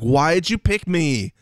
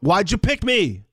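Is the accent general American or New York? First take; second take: general American; New York. First: It is said in a general American accent. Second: It is said in a New York accent. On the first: "just a regular American accent doing it" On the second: "let's change the accent to like something else, like a New York"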